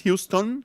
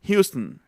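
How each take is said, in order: First: Houston with a clear, full O in "-ton", rising; wrong full-vowel Houston. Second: Houston as "HYOO-stn", O swallowed, falling; correct reduced Houston. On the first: Teacher showing what it is not, mispronunciation demo. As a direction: say Houston as "hyoos-TON", spelling the O out. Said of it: "No es Houston". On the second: Teacher correcting the full-O version, reduced pronunciation. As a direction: drop the last vowel of Houston to a syllabic n. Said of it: "sino Houston". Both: Shown as a demonstration.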